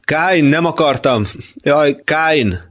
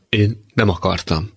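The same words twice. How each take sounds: First: High, anguished calling; pleading cry. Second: Understated tearful voice; a subdued hint of sobbing. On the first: Acted. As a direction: beg him to turn back, pitch raised. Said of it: "most még kérlelőbben". (kérlelő, magas hangú kiáltás) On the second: (visszafogottan, sírósan)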